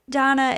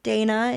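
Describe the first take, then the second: First: The name is said with a non-American pronunciation. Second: The name is said with an American pronunciation. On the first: "as she introduced herself" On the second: "maybe the Americanized pronunciation"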